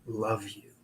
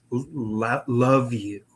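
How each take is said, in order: First: Soft, low imitation of a faint voice; very quiet. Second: Halting imitation, at normal volume; a little louder. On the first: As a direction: say it very quietly, pitched down, as if barely audible. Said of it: "very quietly". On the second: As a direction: repeat the faint message a bit more audibly, stumbling into it. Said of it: "a little bit louder".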